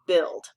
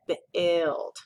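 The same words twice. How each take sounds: First: Said in the usual way. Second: "build" with the ui read as short i, bihld; "build" sounding like "bild", short i drawn out. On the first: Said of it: "it has that U I". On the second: Shown as a demonstration. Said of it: "it's making an I sound instead".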